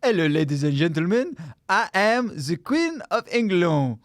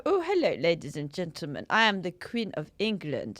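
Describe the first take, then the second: First: Mock French Queen. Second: A hint of a French accent in a posh Queen impression; mock-posh Queen, drifting French; posh Queen voice, accidentally French. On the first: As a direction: ham up the French accent. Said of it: "She French?". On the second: Doing the Queen for a friend, accidentally French. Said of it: "coming out French ... trying to be posh".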